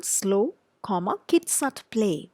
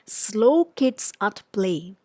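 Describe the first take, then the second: First: Put-on "Slow" set apart by a pause before "kids at play"; pause after slow. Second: Put-on "Slow kids at play" read slowly as one phrase with no break; no pause after "Slow"; run together, slow. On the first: Teacher reading the sign with the comma after slow. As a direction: break clearly after "Slow". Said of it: "Look at the second one". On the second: Teacher reading the sign without the comma. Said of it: "look at the next sentence". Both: Shown as a demonstration.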